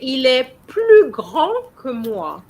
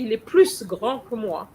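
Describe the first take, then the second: First: The S of plus is silent. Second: The S of plus is pronounced. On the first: The speaker calls it right. "you don't use the S. You would say" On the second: The speaker calls it wrong. "you wouldn't say"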